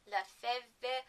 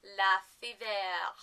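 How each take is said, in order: First: "Lefevre" tried as luh-FEV; attempted pronunciation. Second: "Lefevre" in a clumsy French accent; attempted French accent. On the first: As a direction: say "Lefevre" tentatively, ending on a v sound. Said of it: "should say that with a French accent". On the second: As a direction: try "Lefevre" as a mock-French luh-fee-VAIR. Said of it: "say this with a French accent". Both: Shown as a demonstration.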